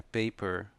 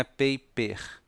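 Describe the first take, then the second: First: "paper" ending in a clear r; "paper" said with a curled final r; "paper" with an English r; correct paper. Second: "paper" ending in an h sound; "paper" said the Brazilian way; wrong paper. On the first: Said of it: "é paper". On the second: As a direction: mispronounce "paper" as pe-pehh. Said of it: "Não é paper". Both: Shown as a demonstration.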